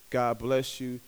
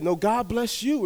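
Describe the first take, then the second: First: Said in the usual way. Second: "you" stretched out, voice raised; stress on YOU. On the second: Retold or imitated. Grateful strangers return the blessing to the friend, stress on YOU. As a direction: turn the blessing back with a drawn-out "you". Blessing turned back on the giver.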